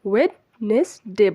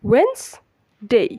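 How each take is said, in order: First: It is said as wed-nes-day, three syllables. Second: It is said as wenz-day, two syllables. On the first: The speaker calls it wrong. "আমরা মূলত এটাকে ওয়েডনেসডে বলি" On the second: The speaker calls it right. "সঠিক শুদ্ধ উচ্চারণ হচ্ছে ওয়েন্সডে"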